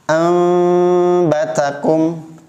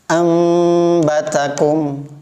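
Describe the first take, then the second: First: The lips stay slightly apart on the m sound. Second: The lips touch lightly on the m sound. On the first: "ambatakum tidak nempel" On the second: "Mimnya nempel tapi tidak kuat"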